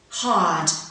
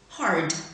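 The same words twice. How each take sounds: First: It is said in a British accent. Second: It is said in an American accent. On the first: "first in received pronunciation" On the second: "second in general American"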